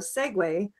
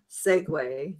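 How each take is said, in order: First: The stress is on the second syllable. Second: The stress is on the first syllable. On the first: It is the verb. "more second syllable, the verb" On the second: It is the noun. "the noun segue is more first syllable stress"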